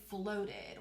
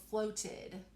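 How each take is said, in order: First: Said in the usual way. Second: "floated" with a crisp T: "float-ted"; careful true T. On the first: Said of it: "But when we talk, we say floated". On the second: Shown as a demonstration. Teacher offering children the second way to say it, careful T in "floated". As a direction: release the middle T clearly in "floated". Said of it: "if I really stretch it out and say all of those sounds".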